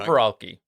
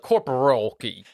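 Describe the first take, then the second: First: The R is said plainly, without a drawl. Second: The R is drawn out with a Texan drawl.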